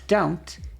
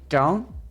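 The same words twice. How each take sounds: First: The word is clearly and fully enunciated. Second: The word is mumbled and not fully enunciated. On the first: It sounds more feminine. "to say don't is more feminine" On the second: It sounds more masculine. "to say don't is more masculine"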